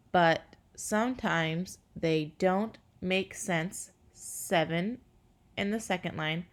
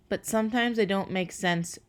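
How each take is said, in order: First: Counting syllables. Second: Said in the usual way. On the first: Shown as a demonstration. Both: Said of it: "if you count the syllables".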